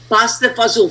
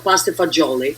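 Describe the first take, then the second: First: The second word has a clipped Southern dialect pronunciation. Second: The second word has the standard Italian pronunciation. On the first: It is the home family way of saying it. "Fazool is like a slang way of saying beans, and it's so truly Italian, like uh, like Southern Italian" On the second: It is the restaurant menu name.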